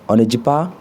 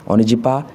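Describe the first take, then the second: No difference in how they are said.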